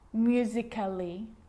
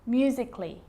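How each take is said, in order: First: An extra vowel is pronounced before the ending. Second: The vowel before the ending is left out. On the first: The speaker calls it wrong. "So I'm not pronouncing" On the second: The speaker calls it right. "Cut the A out. Get rid of it"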